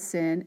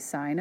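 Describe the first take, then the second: First: The vowel is short, rhyming with 'pin'. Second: The vowel is long, rhyming with 'line'. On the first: The speaker calls it wrong. "we do not pronounce that as sin" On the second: The speaker calls it right. "you say sine of A"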